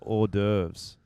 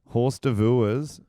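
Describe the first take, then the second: First: It sounds like 'or-derves', with silent letters. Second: It sounds like 'horse divorce', read as spelled. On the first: The speaker calls it right. "is actually pronounced hors d'oeuvres" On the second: The speaker calls it wrong. "Horse divorce is actually pronounced"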